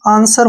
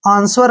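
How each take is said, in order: First: The w sound after s is silent. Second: The w sound after s is pronounced. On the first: The speaker calls it right. "आंसर होता है ये" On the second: The speaker calls it wrong. "आंसर नहीं पढ़ना है"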